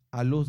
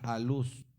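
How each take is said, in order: First: Said in the usual way. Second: "A Luz" with the stress on the u of "Luz". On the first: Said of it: "así como suena". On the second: Shown as a demonstration. Pastor spells out the name for the church, "Luz" stressed on the u. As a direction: say "A Luz" slowly and lean on the u. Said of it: "Con acento en la U".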